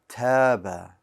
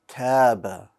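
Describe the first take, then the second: Both takes have the same delivery.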